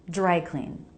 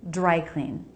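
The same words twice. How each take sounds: Both takes have the same delivery.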